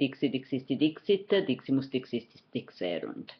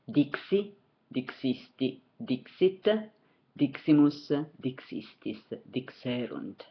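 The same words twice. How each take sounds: First: The forms are said very rapidly. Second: The forms are said at a moderate pace.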